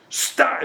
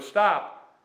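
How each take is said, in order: First: It is said urgently, with alarm. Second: It is said casually, without urgency.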